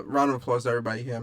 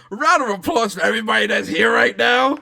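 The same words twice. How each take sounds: First: Said in the usual way. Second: Loud, high host's applause call; hype-man shout for applause; rousing shout. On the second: Real, not acted. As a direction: holler it out to the whole crowd. Redoes applause call as big announcement.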